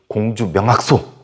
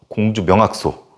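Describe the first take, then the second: Both takes have the same delivery.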